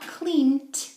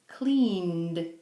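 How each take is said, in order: First: The ending is said with a hard sound. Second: The ending is said with a soft sound. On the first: The speaker calls it wrong. "not cleaned" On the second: The speaker calls it right. "It's softer"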